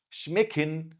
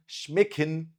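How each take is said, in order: Both takes have the same delivery.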